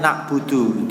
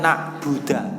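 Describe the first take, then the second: First: The word ends with a u vowel. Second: The word ends with an a vowel. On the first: The speaker calls it right. "aslinya na'budu" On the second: The speaker calls it wrong. "membaca fathah dalnya lafal na'budu"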